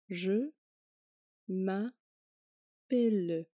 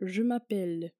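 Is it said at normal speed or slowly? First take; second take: slowly; normal speed. First: It is said slowly. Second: It is said at normal speed.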